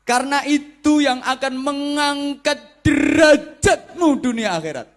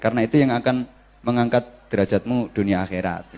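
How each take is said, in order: First: It is said with lively, emphatic preacher intonation. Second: It is said flatly, without lively intonation.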